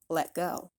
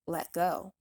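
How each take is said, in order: First: The T in let is a glottal stop. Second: The T in let is a glottal stop.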